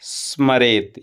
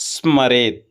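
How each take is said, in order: The two takes are said the same way.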